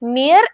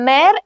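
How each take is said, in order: First: The vowel sounds like English 'ee'. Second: The vowel sounds like an open 'eh'. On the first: The speaker calls it wrong. "mere എന്നല്ല" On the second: The speaker calls it right. "mare എന്നാണ് പറയുന്നത്"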